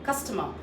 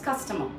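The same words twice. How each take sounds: First: The final R is barely pronounced. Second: The same.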